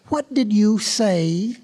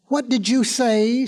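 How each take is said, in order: First: Very slow, word-by-word challenge; confrontational question. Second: Higher, slowed disbelieving question; affronted question. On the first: Hare right in the tortoise's face, slow challenge. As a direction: spell it out slowly, leaning on "did you say". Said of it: "pushing his face up close to the tortoise's face". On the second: Hare taken aback by the tortoise's retort, affronted question. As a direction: ask it with a rising, affronted tune. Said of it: "No one had ever spoken to him like that". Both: A narrator's reading.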